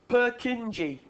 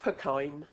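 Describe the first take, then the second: First: The name gets an English reading of its spelling. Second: The name is said the way its owner said it. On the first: The speaker calls it wrong. "being English, ... you look at that word, and what do you say? ... Yeah, it's not" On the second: The speaker calls it right. "So that is to make us pronounce it properly. It's Purkine"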